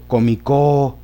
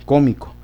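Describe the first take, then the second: First: The stress is on the last syllable. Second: The stress is on the first syllable. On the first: The speaker calls it wrong. "O si lo pongo en la co, comicó" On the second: The speaker calls it right. "se acentúan en la antepenúltima sílaba"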